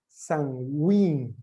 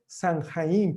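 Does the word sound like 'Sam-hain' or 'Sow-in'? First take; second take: Sow-in; Sam-hain. First: It is said with the silent letters dropped. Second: It is read letter by letter as spelled. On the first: This is how it is actually pronounced. The speaker calls it right. "la pronunciación es Samhain" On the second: This is how it looks in writing. The speaker calls it wrong. "se escribe Samhain, parece, ¿no?"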